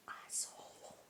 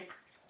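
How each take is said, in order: First: Barely audible whisper. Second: Said in the usual way. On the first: Real, not acted. Vlogger hesitating over a swear word to viewers, whispered. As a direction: whisper the swear word under your breath.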